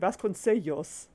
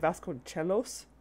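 First: The ce is soft, with a y-like l. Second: The ce is said with a ch sound. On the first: The speaker calls it right. "that's a double L. It should be Sellos" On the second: The speaker calls it wrong. "the CE being pronounced with a CH sound, which is wrong"

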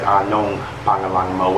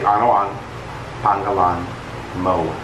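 First: The first two words are merged into one. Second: The first two words are said separately. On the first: "have combined these two words" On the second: "This is the proper way to say it though"

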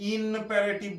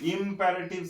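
First: The first syllable ends with an n sound. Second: The first syllable ends with an m sound. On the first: The speaker calls it wrong. "কেউ কিন্তু ইনপ্যারেটিভ বলবে না।" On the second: The speaker calls it right. "ইম, আই এম"

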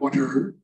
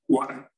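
First: The final r sound is clearly pronounced. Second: The final r becomes an 'ah' vowel. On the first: "It's not water" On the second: "With an A"

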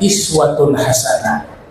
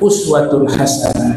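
First: The first word begins with an 'i' vowel. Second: The first word begins with a 'u' vowel. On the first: "bisa juga dibaca iswatun hasanah" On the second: "Qiraah yang lainnya uswatun hasanah"

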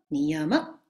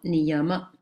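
First: The word ends with a slight high accent. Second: The word ends without a raised pitch. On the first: "dà un accentino un po' in alto così" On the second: "sentite Niyama"

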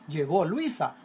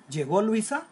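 First: It is said as a plain statement. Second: It is said as a question.

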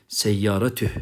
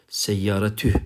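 Both takes have the same delivery.

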